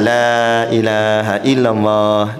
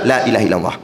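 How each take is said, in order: First: It is said slowly and calmly. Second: It is said fast and hurried.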